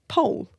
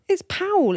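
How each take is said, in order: First: The name has one syllable, like pole. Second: The name has two syllables, like pow-ell. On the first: The speaker calls it right. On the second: The speaker calls it wrong.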